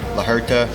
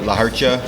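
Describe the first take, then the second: First: The second word is 'her-ta' without a 'w' glide. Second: The second word ends with a 'cha' sound. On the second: "They say La Hercha"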